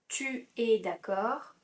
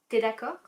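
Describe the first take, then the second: First: The pronoun tu is said in full. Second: The pronoun is shortened to a bare t.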